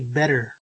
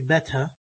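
First: The middle consonant sounds like a d. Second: The middle consonant is a clear, marked t. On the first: "or I could even say better with a D sound" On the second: "If we were speaking in RP English, we would say beta, very, very marked T"

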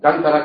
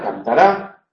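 First: The stress falls before the last syllable. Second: The stress falls on the last syllable.

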